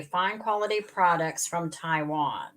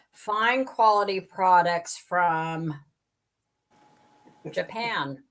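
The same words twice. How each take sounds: First: "Taiwan" read as the correction, falling; corrected reading. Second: Said in the usual way. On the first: Shown as a demonstration. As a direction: reread with "Taiwan" in place of "Japan". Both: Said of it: "No, Taiwan".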